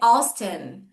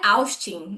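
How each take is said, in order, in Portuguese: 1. O nome é dito com sotaque do inglês americano. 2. O nome é dito com sotaque do português brasileiro. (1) "o nome dele é Austin" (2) "aqui no Brasil, quando ele vem, ele vira Austin"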